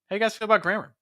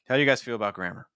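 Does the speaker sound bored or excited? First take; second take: excited; bored. First: The pitch jumps higher on how and grammar. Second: The voice is flat and unexcited. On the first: The speaker is trying to engage the listeners. The speaker calls it right. "I'm going a little higher on how. I'm also going higher in pitch on grammar" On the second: The speaker is not interested in the topic. The speaker calls it wrong. "you don't sound particularly excited about the thing you're going to talk about"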